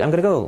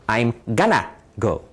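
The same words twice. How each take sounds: First: The phrase is said quickly and smoothly. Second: The phrase is said slowly and deliberately. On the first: The speaker calls it right. "If you speak quickly" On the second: The speaker calls it wrong. "it sounds a little strange that way"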